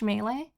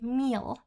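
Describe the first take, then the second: First: The word is said as two syllables. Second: The word is said as one syllable. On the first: The speaker calls it right. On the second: The speaker calls it wrong.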